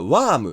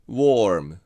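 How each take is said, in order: First: The vowel is an open 'ah' sound. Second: The vowel is an 'oh' sound followed by R. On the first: The speaker calls it wrong. "これは多くの日本人がwarm って言いますよね。" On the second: The speaker calls it right. "R を綴り通りちゃんと発音してwarm。"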